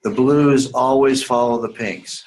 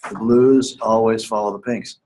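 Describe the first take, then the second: First: "blues" leaned on, slow and deliberate; stress on blues. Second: Said in the usual way. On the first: Shown as a demonstration. Teacher stressing a rule for writing students, slow and deliberate. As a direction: spell out "the blues always follow the pinks" slowly.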